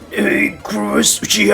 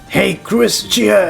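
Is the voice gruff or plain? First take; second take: gruff; plain. First: It is said in a gruff voice. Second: It is said in a plain voice.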